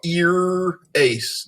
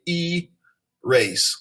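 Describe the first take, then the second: First: The first vowel is short, split after the consonant. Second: The first vowel is long, split before the consonant. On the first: The speaker calls it wrong. "We don't go ear-ace" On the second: The speaker calls it right. "So that is the long vowel, and it divides before the consonant"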